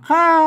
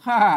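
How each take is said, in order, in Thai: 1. ออกเสียงด้วยวรรณยุกต์เอกพิเศษ 2. ออกเสียงด้วยวรรณยุกต์เอกปกติ (1) "เสียงโทรพิเศษ" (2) "ค่าเสียงโทรปกติ"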